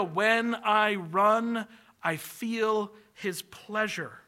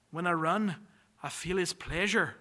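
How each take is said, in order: First: Said very slowly, letting each word land; slow, savoring. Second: Put-on a weak Scottish accent, only lightly there; quoting Eric Liddell in a faint Scottish accent. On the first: Shown as a demonstration. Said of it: "I love that idea". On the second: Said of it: "my Scottish accent has not improved".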